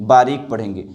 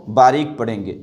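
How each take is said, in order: Both takes have the same delivery.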